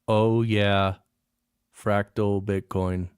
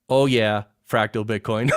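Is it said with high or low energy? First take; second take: low; high. First: It is said flatly, with no energy. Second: It is said with lively, high energy.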